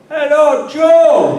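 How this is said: The greeting sounds warm and enthusiastic.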